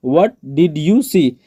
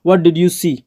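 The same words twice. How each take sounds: First: Slow, evenly spaced words; slow teaching repeat. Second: Said in the usual way. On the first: Shown as a demonstration. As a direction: say each word separately for a learner. Teacher repeats phrase word by word.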